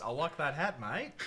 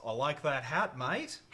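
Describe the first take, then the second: First: Australian accent, louder and higher; Aussie phrase, bright and loud. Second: Broad Australian accent, loud and bright; Aussie accent, hit the mate. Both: Shown as a demonstration. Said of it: "That's how I get into my Aussie accent".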